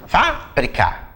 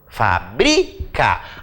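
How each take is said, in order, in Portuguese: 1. A tônica fica na primeira sílaba. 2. A tônica fica na segunda sílaba. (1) "Última, penúltima, antepenúltima, proparoxítona" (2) "A sílaba tônica é o bri"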